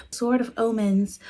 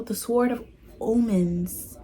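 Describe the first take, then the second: First: Said in the usual way. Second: OMENS slow and oddly stretched; odd pronunciation. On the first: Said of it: "I said it normal that time". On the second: Real, not acted. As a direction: draw out OMENS so it sounds slightly off. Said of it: "am I saying it weird still?".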